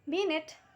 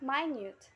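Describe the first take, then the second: First: The word does not rhyme with cute. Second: The word rhymes with cute and mute.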